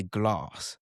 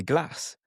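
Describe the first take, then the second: First: "glass" with a long ah, like "glahss"; southern English glass. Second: "glass" with a short flat a, as in "cat"; Midlands glass. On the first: Southerner with Midlands family, long-ah "glass". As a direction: draw out the vowel in "glass" as ah. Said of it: "I would say glass". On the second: Imitating Midlands family, short-a "glass". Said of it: "they would say glass". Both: Shown as a demonstration.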